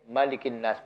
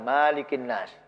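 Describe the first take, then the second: First: The first vowel of malikin is short. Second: The first vowel of malikin is long. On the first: The speaker calls it right. "ini pendek" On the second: The speaker calls it wrong.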